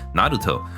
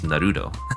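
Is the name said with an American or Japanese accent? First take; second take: Japanese; American. First: The name is said with Japanese pronunciation. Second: The name is said with an American accent. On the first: This is how the show says it. The speaker calls it right. "You hear you hear Naruto" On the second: This is how an American mishears it. The speaker calls it wrong. "he goes Naruto"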